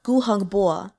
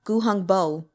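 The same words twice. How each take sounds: First: "gu hung bo" with "bo" opened to "bwaw"; Mandarin O in "bo". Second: "gu hung bo" with "bo" rhyming with English "go"; wrong English O. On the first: Teacher showing the correct Mandarin vowel, "bo" as open "bwaw". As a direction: end "gu hung bo" on an open "aw", no oo glide. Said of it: "Theirs is more like". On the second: Teacher showing what not to say, English diphthong "bo". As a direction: close "bo" of "gu hung bo" into an oo glide. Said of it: "Not gu hung bo". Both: Shown as a demonstration.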